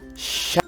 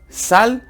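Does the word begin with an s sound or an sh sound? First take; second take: sh; s. First: The word begins with an sh sound. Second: The word begins with a plain s sound. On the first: The speaker calls it right. "Alargo la S" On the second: The speaker calls it wrong. "Sal está mal dicho"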